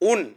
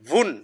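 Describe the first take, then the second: First: The syllable starts directly with a vowel. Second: The syllable starts with a w sound. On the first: The speaker calls it wrong. "ওয়াও আর ওয়াও উচ্চারণ হলো না... হামজার উচ্চারণ হয়ে গেল" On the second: The speaker calls it right. "ওয়াও দুই পেশ ভুন"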